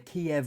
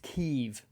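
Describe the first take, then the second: First: The name is said in its Russian-based form. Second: The name is said in its Ukrainian form. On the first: It follows the name used by Russia. "a pronunciation based on the Russian language uh, rendition of the city's name" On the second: It follows the name used by Ukrainians. "a pronunciation that reflects the Ukrainian language and history"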